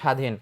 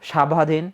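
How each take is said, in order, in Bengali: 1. প্রথম 's' এর পরে কোনো 'b' ধ্বনি শোনা যায় না। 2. প্রথম 's' এর পরে একটি 'b' ধ্বনি শোনা যায়। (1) "যেমন বলা হয়েছে স্বাধীন" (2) "আমরা কি কখনো উচ্চারণ করি স্বাভাধীন? কখনোই উচ্চারণ করি না।"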